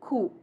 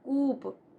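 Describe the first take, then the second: First: No p sound is heard at the end. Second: A p sound is pronounced at the end. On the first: The speaker calls it right. "P is silent" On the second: The speaker calls it wrong. "It is not coop"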